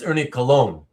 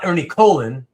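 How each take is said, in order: First: The surname sounds like the word 'cologne'. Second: The surname does not sound like 'cologne'. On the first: The speaker calls it right. "it's Ernie Cologne" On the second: The speaker calls it wrong. "it's not Ernie Colon"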